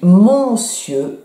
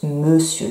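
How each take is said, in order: First: The word is sounded out following its spelling. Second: The word is said with its usual spoken pronunciation. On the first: "ça s'écrit monsieur" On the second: "mais ça se prononce monsieur"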